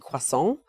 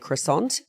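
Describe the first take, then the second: First: It is said with a French-style pronunciation. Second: It is said with an Australian English pronunciation. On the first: This is the traditional pronunciation. "the traditional French pronunciation would be croissant" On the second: This is the common local pronunciation. "in Australia, it's very common to say croissant"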